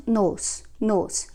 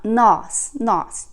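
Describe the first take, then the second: First: "nos" with a closed, rounded o; "nos" sounding like "nohs", not open; without accent, closed o. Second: "nós" with an open aw vowel; "nós" sounding like "naws", open o; accented, open o. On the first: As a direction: say "nos" with a tight oh vowel, no accent. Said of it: "uh, sharp accent". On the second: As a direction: say "nós" stronger, with the o wide open. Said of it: "more open sound". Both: Shown as a demonstration.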